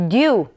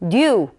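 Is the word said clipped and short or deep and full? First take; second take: deep; deep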